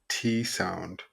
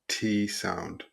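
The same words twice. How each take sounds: The two takes are said the same way.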